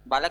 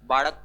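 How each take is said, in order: First: The middle consonant is a plain l sound. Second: The middle consonant is a retroflex flap-like sound. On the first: This is the standard Hindi way to say the word. "बालक नहीं बोलते" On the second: This is how Haryanvi speakers say the word. "जैसे हरियाणवी में बोलते हैं ना"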